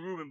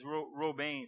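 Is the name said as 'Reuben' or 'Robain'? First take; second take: Reuben; Robain. First: The name is said in the common English way. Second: The name is said closer to the original form. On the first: The speaker calls it wrong. "We say Reuben" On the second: The speaker calls it right. "It's Robain, something like"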